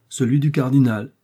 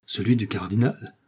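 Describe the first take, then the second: First: "Celui du cardinal" louder, falling firmly at the end; confirming answer. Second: "Celui du cardinal" as a question, rising at the end; amused question. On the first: Woman confirming whose money it is, "Celui du cardinal" louder, falling. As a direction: confirm "Celui du cardinal" with more force and a closing fall. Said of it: "répondit madame Bonacieux". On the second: Young man questioning whose money it is, "Celui du cardinal" rising in question. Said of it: "s'écria en éclatant de rire D'Artagnan". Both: A narrator's reading.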